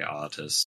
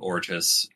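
First: The name is said without an r sound. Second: The name is said with an r sound. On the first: "I am going to say Otis" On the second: "I'm not going to correct you on saying Ortis"

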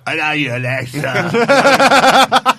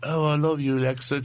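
First: It is said in a heavy, exaggerated accent. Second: It is said in a mild, normal accent.

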